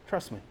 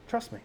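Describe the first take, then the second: First: Soft invitation. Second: Much softer and higher; soft, lifted echo. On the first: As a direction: say it quietly, like a hand on the shoulder. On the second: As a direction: repeat it higher and lighter, like a gentle plea. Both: Acted. Voicing God's gentle invitation.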